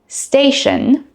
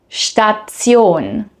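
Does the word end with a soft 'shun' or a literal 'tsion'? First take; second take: shun; tsion. First: The ending is a soft 'shun' sound. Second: The ending is a literal 'tsion' sound. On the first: "the English pronunciation" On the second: "the German pronunciation"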